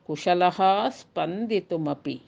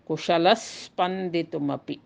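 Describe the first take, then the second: First: The word ends in a breathy h sound. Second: The h is replaced by a doubled s sound.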